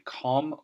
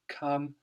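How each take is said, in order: First: The vowel is a strong o sound. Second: The vowel is a short uh sound. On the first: The speaker calls it wrong. "we don't say them as a strong oh sound. We don't say com" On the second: The speaker calls it right. "We say come"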